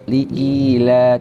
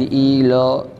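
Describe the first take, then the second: First: The vowel is light and thin, a clear a. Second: The vowel is heavy and rounded toward o. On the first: The speaker calls it right. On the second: The speaker calls it wrong.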